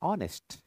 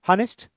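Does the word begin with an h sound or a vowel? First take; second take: vowel; h sound. First: The word starts with a vowel sound. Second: The word starts with an h sound. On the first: The speaker calls it right. "ऑनेस्ट. Correct" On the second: The speaker calls it wrong. "आपण असं म्हणतो का? हॉनेस्ट? No"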